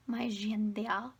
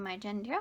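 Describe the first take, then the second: First: GENDER drawn out slowly as "zhen-deh-ah"; playfully affected, stretched-out GENDER; mock-fancy pronunciation. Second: Said in the usual way. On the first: Repeats word in put-on way.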